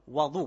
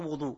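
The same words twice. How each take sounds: First: The first vowel is an open a sound. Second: The first vowel is a rounded u sound. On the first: The speaker calls it right. "avec fath al-waw" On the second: The speaker calls it wrong. "pas wadou"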